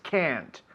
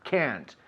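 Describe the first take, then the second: First: It is said with an American English accent. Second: The same.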